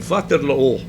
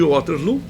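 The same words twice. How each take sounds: First: Waterloo is pronounced in a non-English way. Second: Waterloo is pronounced the English way. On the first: The speaker calls it right. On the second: The speaker calls it wrong.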